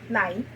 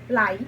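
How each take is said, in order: First: The word is said with a mid tone. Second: The word is said with a mid tone.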